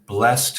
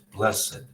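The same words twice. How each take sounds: First: The word is said with one syllable. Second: The word is said with two syllables. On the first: It is used as a verb. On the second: It is used as an adjective.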